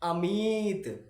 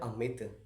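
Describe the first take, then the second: First: The word is said with strong force and energy. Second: The word is said softly, with little force. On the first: "pressure देते हैं, जोर देते हैं" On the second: "आराम से बोलेंगे"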